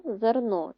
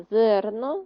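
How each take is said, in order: First: ЗерНО with the last syllable stressed; zer-NO, weight at the end; stress on second syllable. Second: ЗЕРно with the first syllable stressed; ZER-no, weight up front; wrong stress on first. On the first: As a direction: land on НО in зерно. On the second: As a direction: punch ЗЕР in Зерно. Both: Shown as a demonstration. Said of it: "мало інший наголос".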